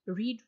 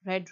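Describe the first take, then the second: First: The vowel is long, like 'reed'. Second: The vowel is short, like 'red'. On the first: It is the present form. "रीड first form है" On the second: It is the past form. "Second और third form में इसको हमने रेड पढ़ना होता है"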